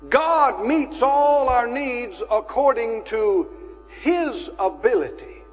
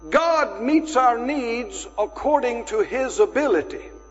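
First: It is said slowly. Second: It is said at a normal pace.

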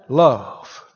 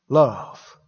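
The two takes are said the same way.

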